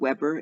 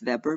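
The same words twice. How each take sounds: First: The name begins with a W sound. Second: The name begins with a V sound. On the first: The speaker calls it wrong. "instead of Weber" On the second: The speaker calls it right. "in German the W is a V, pronounced like a V"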